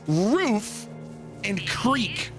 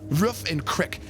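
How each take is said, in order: First: The second word is said like 'creek'. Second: The second word is said like 'crick'. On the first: The speaker calls it right. "It's roof and creek, okay?" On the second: The speaker calls it wrong. "Canadians say roof. Roof and crook, crick"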